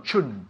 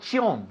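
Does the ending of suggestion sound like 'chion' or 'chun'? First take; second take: chun; chion. First: The ending is said like 'chun'. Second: The ending is said like 'chion'. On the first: The speaker calls it right. "no, chun" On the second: The speaker calls it wrong. "Not chion"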